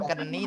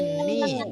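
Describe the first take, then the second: First: The k is sounded before the vowel. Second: The word starts directly with an n. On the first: The speaker calls it wrong. "K-nya nggak usah dibaca, bukan keni" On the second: The speaker calls it right. "tapi ni"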